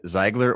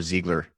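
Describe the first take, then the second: First: "Ziegler" with the first vowel like "eye"; long-i pronunciation. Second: "Ziegler" with the first vowel like "ee"; long-e pronunciation. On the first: Host asking Rob about his surname, "Ziegler" said ZIGH-gler. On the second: Host offering Rob another surname option, "Ziegler" said ZEE-gler. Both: Shown as a demonstration. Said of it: "Is it Ziegler or Ziegler?".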